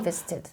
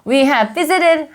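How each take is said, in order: First: The v sound is said once, have nearly vanishes. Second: The word have is pronounced fully and separately.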